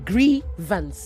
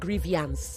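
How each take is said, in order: First: It ends in plain -vance with no extra vowel. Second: An extra ee vowel comes before the -ance ending. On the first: The speaker calls it right. "It is grievance" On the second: The speaker calls it wrong. "There is no I before the A N C E"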